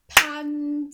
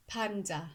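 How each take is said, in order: First: "Panda" as two loud, high, separate beats; clapped-out syllables. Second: Said in the usual way. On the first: Shown as a demonstration. Teacher checking the children got it right, "Panda" syllable by syllable. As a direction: stretch and split "Panda" into pand, a. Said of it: "Let's see if you got it right". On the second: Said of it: "in the word panda".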